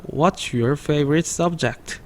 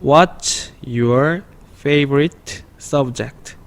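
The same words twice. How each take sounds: First: What's your favorite subject run together, quicker and smoother; teacher shows the fluent linked reading; linked faster. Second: What's your favorite subject read very slowly, each word apart; slow read-along before the linked version; slow separate words. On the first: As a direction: glue the words What's your favorite subject into one flow. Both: Shown as a demonstration. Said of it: "조금 빠르게 붙여 읽으면".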